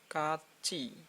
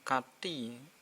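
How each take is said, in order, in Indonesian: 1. Suku kata terakhir diucapkan dengan bunyi CH. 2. Suku kata terakhir diucapkan dengan bunyi T. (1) "T ketemu I jadi ci" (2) "bukan kati"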